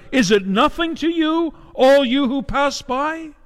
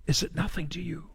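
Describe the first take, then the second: First: Crying out at the top of her lungs. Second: Much softer, nearly breathed echo of the question; hushed repeat. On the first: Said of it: "at the top of her lungs, she cries out". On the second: Preacher repeating the widow's question to the congregation, much softer. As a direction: let it fall to a hushed, aching echo. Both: Acted.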